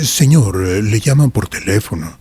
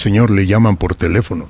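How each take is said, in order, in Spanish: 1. Se dice con un tono humilde y respetuoso. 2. Se dice con un tono sencillo y neutral.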